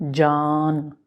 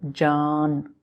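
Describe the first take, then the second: Both takes have the same delivery.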